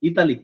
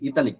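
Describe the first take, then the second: First: The word begins with an 'ee' sound. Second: The same.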